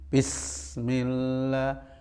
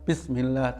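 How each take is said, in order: First: The s sound hisses with flowing air. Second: The s sound is short with little hiss. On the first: The speaker calls it right. "sifat mengalir berupa apa? Angin dan suara. Juga sofir, sofir itu siul" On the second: The speaker calls it wrong. "jangan diucapkan bismillah"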